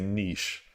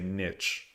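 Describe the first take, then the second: First: It uses the Californian, more sophisticated-sounding pronunciation. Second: It uses the Midwestern, plainer pronunciation of the word. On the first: It is the more sophisticated-sounding way of saying it. "a lot of people out out here in California say niche" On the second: It is the working-class Midwestern way of saying it. "we used to say niche"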